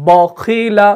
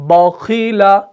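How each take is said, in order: First: The first syllable is pronounced heavy and thick. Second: The same.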